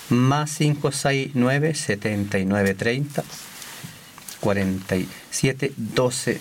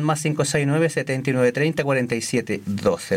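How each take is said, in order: First: The number is said slowly. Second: The number is said fast.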